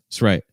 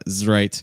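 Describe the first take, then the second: First: The s in it's is a voiceless s. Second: The s in it's is voiced like z. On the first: The speaker calls it right. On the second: The speaker calls it wrong. "So it's not"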